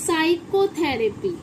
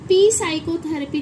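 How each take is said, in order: First: The word begins with an s sound, no p. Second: The word begins with a sounded p before s. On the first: The speaker calls it right. "इसमें पी silent है" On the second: The speaker calls it wrong. "अब देखिए इसे पी साइकोथेरेपी नहीं पढ़ेंगे"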